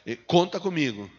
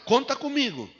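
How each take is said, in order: First: It is said weakly, without enthusiasm. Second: It is said strongly, with enthusiasm.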